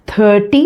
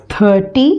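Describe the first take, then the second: No difference in how they are said.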